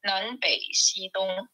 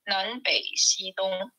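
First: The words are read in Mandarin pronunciation. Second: The words are read in Mandarin pronunciation.

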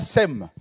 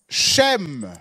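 First: The name begins with a plain s sound. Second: The name begins with a sh sound. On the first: The speaker calls it wrong. "c'est pas Sem" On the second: The speaker calls it right. "c'est Shem"

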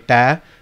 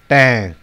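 First: The vowel is plain, without nasal sound. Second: The vowel has an added nasal sound. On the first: "That's my ta" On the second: "it adds a nasal N sound"

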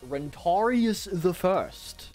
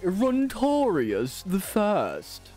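First: It is said in an ordinary, plain voice. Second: It is said in a grand, fancy voice. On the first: "I'm reading that one way" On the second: "can even make it fancy"

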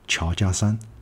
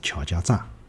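First: The last syllable is pronounced shan. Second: The last syllable is pronounced zha. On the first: The speaker calls it right. "应该也是叫桥家商" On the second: The speaker calls it wrong. "而勿是桥家炸"

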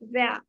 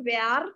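First: The final r sound is kept short. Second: The final r sound is dragged out. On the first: The speaker calls it right. "It should be where" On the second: The speaker calls it wrong. "අර Indian වගේ where කියලා අදින් නැහැ"

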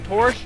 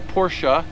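First: The word is said the English way. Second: The word is said the German way.

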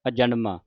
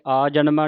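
First: The first vowel is short. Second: The first vowel is long. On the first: The speaker calls it right. "ਐੜੇ ਨੂੰ ਕੰਨਾ ਵੀ ਨਹੀਂ ਲੱਗਣ ਦੇਣਾ" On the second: The speaker calls it wrong. "ਆਜਨਮਾ ਨਹੀਂ ਕਹਿ ਦੇਣਾ"

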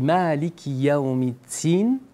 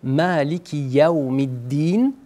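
First: The last word starts with a t-like sound. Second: The last word starts with a clear d sound. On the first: It means master of the day of the fig. The speaker calls it wrong. "qui ressemble à un « ta »" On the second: It means master of the day of judgment. The speaker calls it right. "Au lieu de dire"

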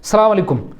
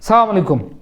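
No difference in how they are said.

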